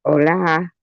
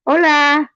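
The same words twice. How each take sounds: First: Said in the usual way. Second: High, held-out hola; put-on high call. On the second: Greeting Rachel Reed, high put-on voice. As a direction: pitch it way up in a playful put-on voice.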